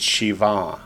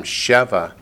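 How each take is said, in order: First: Shiva with the final syllable accented; accent the end of Shiva; stress on last syllable. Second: Sheva with the opening syllable accented; accent the start of Sheva; stress on first syllable. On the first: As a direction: lean on the "va" of Shiva. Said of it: "the accent's on the last syllable". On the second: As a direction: lean on the "She" of Sheva. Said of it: "the accent's on the first syllable". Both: Shown as a demonstration.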